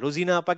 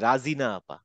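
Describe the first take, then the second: First: The first syllable is said with a rounded 'ro'. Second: The first syllable is said with an open 'ra'. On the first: The speaker calls it right. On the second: The speaker calls it wrong.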